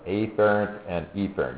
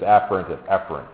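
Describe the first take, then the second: First: The opening vowels are exaggerated and clearly different. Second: The opening vowels are quick and sound nearly alike. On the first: The spelling difference between the words is made easy to hear. "I'm mispronouncing that a little bit, just so that you can appreciate that sensory has an A" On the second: This is the everyday way the words are said. "Usually it's afferent and efferent, but if I say that real fast"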